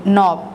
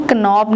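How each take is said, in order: First: नॉब starting straight on n; नॉब with the k left silent. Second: Knobब with a k before the n; wrongly voiced k opening knobब; silent k sounded. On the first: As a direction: say नॉब with no k at the front. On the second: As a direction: say knobब starting on a hard k. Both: Shown as a demonstration. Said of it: "इसको हम knobब नहीं पढ़ेंगे".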